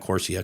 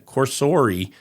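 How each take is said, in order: First: The name ends with a 'see-uh' sound. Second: The name ends with a 'sor-ee' sound. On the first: The speaker calls it wrong. "not Corsia" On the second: The speaker calls it right. "I guess is how you say it"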